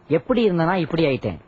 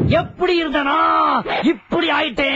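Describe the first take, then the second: First: It is said calmly at normal pitch. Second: It is shouted loudly in a high tone.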